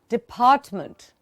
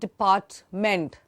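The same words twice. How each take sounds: First: The d and t are soft, last syllable weak. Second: The d and t are hard, last syllable full. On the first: The speaker calls it right. "please try and notice how I'm pronouncing the word" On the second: The speaker calls it wrong. "I'm not saying department"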